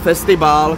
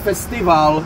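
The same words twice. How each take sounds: First: The consonant after the i is a b. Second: The consonant after the i is a v. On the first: This is the older reading of the letter. "a ne festival" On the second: This is how modern Greek reads it. "máme festival"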